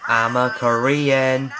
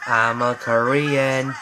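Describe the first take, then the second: No difference in how they are said.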